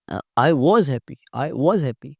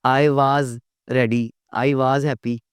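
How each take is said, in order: First: Was said as a quick weak woz; correct was. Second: Was said with a full was vowel; wrong was. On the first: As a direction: model the right was. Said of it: "was तो कोई लफ्ज़ नहीं है ना". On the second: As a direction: stress was as a full word. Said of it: "नहीं यार, was". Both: Shown as a demonstration.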